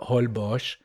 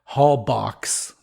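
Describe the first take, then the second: First: The name has the local pronunciation. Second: The name has an American pronunciation.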